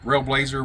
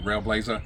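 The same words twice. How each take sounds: First: The name ends with an 'er' sound. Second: The name ends with an 'a' sound. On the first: "however you want to pronounce it" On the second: "It's got an A at the end of it, so I think it's actually Railblazer"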